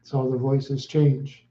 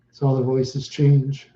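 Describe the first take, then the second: No difference in how they are said.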